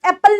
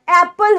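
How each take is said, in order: First: एप्पल with a short, quick first vowel; clipped A vowel. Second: एप्पल with a long open first vowel; lengthened first vowel in एप्पल. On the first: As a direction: cut the ए in एप्पल short, as a mistake. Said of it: "आप उसे एप्पल नहीं बोलते". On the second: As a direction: stretch the ए opening एप्पल. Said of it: "वो लंबा आता है". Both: Shown as a demonstration.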